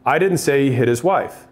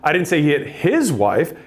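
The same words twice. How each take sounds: First: No word is stressed; the tone is neutral. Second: The word his is stressed. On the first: A plain statement. "If I say it like that, I have neutral tone" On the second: It may have been another man's wife. "It could have been somebody else's"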